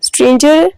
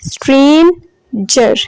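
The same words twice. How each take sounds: First: Said in the usual way. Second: stranger slowly in two parts, strain, jer; syllable by syllable. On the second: Shown as a demonstration. Teacher showing students two syllables, stranger broken slowly in two. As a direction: stretch the first half of stranger, pause, then jer. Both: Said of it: "दो syllables हैं".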